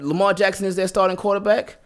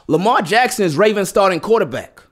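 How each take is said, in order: First: It is said in an unsure, hesitant way. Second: It is said in a firm, confident way. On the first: The listener probably won't believe it. The speaker calls it wrong. "you don't have any confidence" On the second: The listener will believe it. The speaker calls it right. "they believe you"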